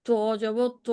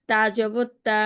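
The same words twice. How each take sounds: First: ত said with a rounded, heavier o-like vowel; ত জবর ত spoken with a rounded o sound; heavy rounded a. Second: তা with a clear open aa sound; তা জবর তা spoken with an open a; open a vowel. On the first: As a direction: say ত jabar ত darker and rounded. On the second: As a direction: say তা jabar তা with a full open aa. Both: Shown as a demonstration. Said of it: "তা আর ত মধ্যে পার্থক্যটা বললাম".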